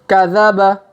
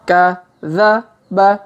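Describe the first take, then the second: First: The word is read quickly. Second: The word is read slowly. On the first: "Kalau dipercepat" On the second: "kita baca pelan-pelan"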